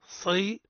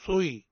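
First: صي with a heavy ص and a clear kasra; correct syllable. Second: صي with a wavering, half-rounded vowel; wrong syllable. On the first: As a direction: model صي, emphatic ص and clean kasra. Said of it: "تفخيم الصاد مع بيان الكسرة". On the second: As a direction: show the faulty صي. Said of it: "هذا خطأ". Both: Shown as a demonstration.

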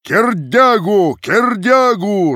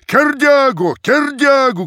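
First: Slow, high, loud drawn-out chant; loudest shout. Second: Very high, loud chanted shout; crowd shout. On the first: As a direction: stretch the name out over everyone. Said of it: "раздавалось сильнее прочих". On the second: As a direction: roar the name twice. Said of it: "кричала толпа". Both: A narrator's reading.

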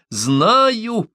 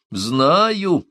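First: Very high, drawn-out cry; yelling through mirth. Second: Drawn-out, raised outburst; rumbling exclamation. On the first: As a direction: wail it out gleefully, without actual laughter. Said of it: "завопила Омаата, давясь от смеха". (весёлый вопль) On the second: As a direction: let it roll out with force. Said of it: "пророкотала она, словно водопад обрушился". (раскатистое восклицание) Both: A narrator's reading.

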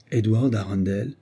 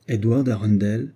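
First: Understated eager question, slightly dulled; eager, muffled voice. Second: Understated cry in a clear voice; clear exclamation. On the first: Olivia presses the doctor about Edward, eager but muted. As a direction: ask the name eagerly in a subdued voice. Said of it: "avec empressement et d'une voix sourde". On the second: Olivia, revived by the name, exclaims it clearly. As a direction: say the name clearly, with a touch of sudden life. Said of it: "s'écria-t-elle d'une voix claire". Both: A narrator's reading.

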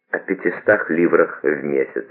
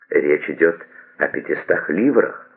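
First: Casually understated, as if a trifle; offhand. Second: Mildly taken aback; a touch of puzzled surprise; surprised. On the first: Gabrielle naming the sum to Toinette, offhand. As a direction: make the sum sound laughably small. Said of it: "таким тоном, словно цифра эта до смешного ничтожна". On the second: Gabrielle hearing her request refused, mildly surprised. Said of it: "удивлённо сказала Габриэль". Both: A narrator's reading.

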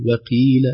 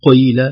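First: وقيل with a light, weakened ق; وقيل light qaf; weak qaf. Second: قيل with the ق wrongly made very heavy; قيل with an overdone qaf; overheavy qaf. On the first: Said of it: "هكذا ضعيفة". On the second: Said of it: "لا نقول". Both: Shown as a demonstration.

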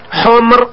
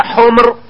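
First: حمر with the vowel that the teacher then rejects; wrong form. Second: حمر said as the proper plural of أحمر; correct form. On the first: Teacher giving the wrong plural before correcting it, plain voice. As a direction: say حمر the mistaken way. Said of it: "لا ماشي حمر". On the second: Teacher modelling the correct plural, plain voice. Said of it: "تقول هكذا حمر". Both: Shown as a demonstration.

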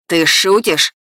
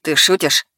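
First: Incredulous yell, moderately raised; furious man's outburst, slightly held back; angry shout. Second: Contained anger in a lightly lowered male voice; incredulous, angry, not yet shouting; angry challenge, held in; rising fury. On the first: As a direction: shout it in disbelief. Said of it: "снова закричал он". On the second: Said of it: "растерянность уступила место ярости". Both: A narrator's reading.

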